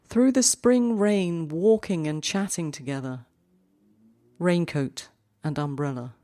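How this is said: The main pause comes after the second line. "what if we put the cut on the second line?"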